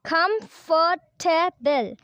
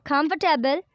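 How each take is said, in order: First: Comfortable very slow, in four separate beats; syllable by syllable. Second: Said in the usual way. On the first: Shown as a demonstration. Teacher shows four syllables, Comfortable broken into slow beats. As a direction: break Comfortable into com, for, ta, ble with pauses. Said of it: "four syllable". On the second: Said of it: "there are four syllable in word".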